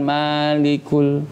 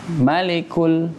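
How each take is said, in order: First: The first vowel 'ma' is long. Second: The first vowel 'ma' is short. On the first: The speaker calls it wrong. "bukan malikul" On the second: The speaker calls it right. "Ma pendek"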